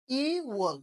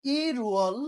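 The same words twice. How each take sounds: First: ইওয়াল gliding straight into W; no linking R. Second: Louder ইরুয়াল with a clear R; linked pronunciation. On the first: Teacher contrasts two months, ইওয়াল without R. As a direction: keep ইওয়াল free of any R. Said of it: "ওয়াল, ওয়ালই রয়ে যাচ্ছে". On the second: Teacher contrasts two months, loud ইরুয়াল with R. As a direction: bring out the R inside ইরুয়াল. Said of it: "এই মাসের নামগুলো উচ্চারণ করে নিই". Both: Shown as a demonstration.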